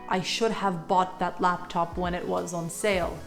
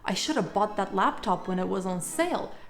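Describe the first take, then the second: First: "Should have" is said as two full words. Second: "Should have" is reduced to "shoulda". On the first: "rather than" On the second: "Shoulda ... are short forms of should have"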